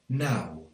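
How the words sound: The vowel glides like 'ow'. This is the local way of speaking. "it's more likely to be pronounced like ow"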